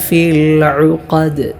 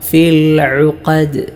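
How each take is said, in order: No difference in how they are said.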